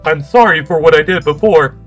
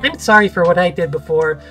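First: It is said in a robot voice. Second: It is said in a normal voice.

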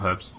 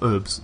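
First: The word is said in a British way. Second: The word is said in a North American way.

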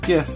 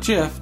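First: The word begins with a hard G sound. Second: The word begins with a soft J sound. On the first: The speaker calls it right. "it's pronounced GIF, because it's graphics interchange format" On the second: The speaker calls it wrong. "not GIF"

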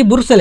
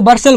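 First: The first vowel sounds like 'oo' in 'boor'. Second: The first vowel sounds like 'ur' in 'bur'. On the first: The speaker calls it wrong. "वैसे लगा है लगता है कि बुरसल है" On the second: The speaker calls it right. "लेकिन इसको बर्सल बोलते हैं"

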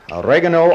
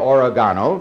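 First: The word is said with an English pronunciation. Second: The word is said with a Spanish pronunciation. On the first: "the English pronunciation" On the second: "or the Spanish"

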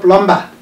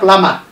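First: The B sound is pronounced. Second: The B sound is silent. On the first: The speaker calls it wrong. "not plumber" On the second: The speaker calls it right. "we have plama"

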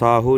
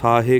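First: The word ends in a 'u' sound. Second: The word ends in an 'e' sound. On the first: The speaker calls it wrong. "ਪਰ ਸਾਹੂ ਨਹੀਂ ਹੈ" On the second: The speaker calls it right. "ਸ਼ੁੱਧ ਜਿਹੜਾ ਪਾਠ ਹੈ ਸਾਹੇ ਕਹਿਣਾ"

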